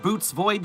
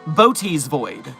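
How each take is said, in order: First: The first word has one syllable. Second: The first word has two syllables. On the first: The speaker calls it wrong. "I thought it was pronounced Boots Void too" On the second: The speaker calls it right. "it's pronounced Boaty's Void. Two syllables"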